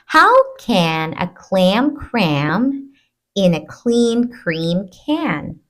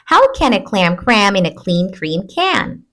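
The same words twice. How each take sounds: First: The sentence is spoken slowly. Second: The sentence is spoken quickly. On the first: "I'll read it slowly first" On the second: "A little bit faster"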